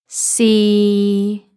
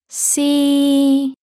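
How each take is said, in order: First: The pitch is level and mid. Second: The pitch is level and high. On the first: "A flat tone in the middle of your voice range" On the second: "let's hear the first and the third tone together"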